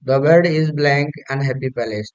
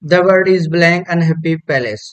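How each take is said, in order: First: Slow repeat read. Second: Slow, emphatic read. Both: Shown as a demonstration.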